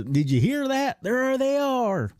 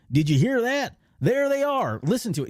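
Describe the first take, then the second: First: High, slow Texas drawl, imitating the stormtrooper again. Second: High Texas drawl, imitating the stormtrooper; a hammed-up Texas twang, pitched high; southern drawl. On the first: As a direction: stretch out "There they are" in a high Texas twang. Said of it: "the guy from Texas". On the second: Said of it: "this southern drawl".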